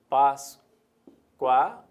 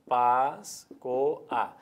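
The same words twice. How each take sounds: First: The last two vowels glide into one syllable. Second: The last two vowels split into two syllables.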